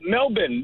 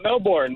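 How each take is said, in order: First: It is pronounced the Australian way. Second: It is pronounced the American way. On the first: This is how locals say it. The speaker calls it right. "in Australia, they call it Melbourne" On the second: This is how outsiders say it. The speaker calls it wrong. "not Melbourne, like oh. we call it here"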